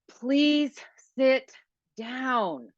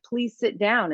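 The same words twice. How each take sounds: First: It is said in an impatient, exasperated tone. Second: It is said in a polite, pleasant tone. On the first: I've asked you many times already. The speaker calls it wrong. "that is not respectful tone" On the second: A courteous request. The speaker calls it right. "we think that's really very polite"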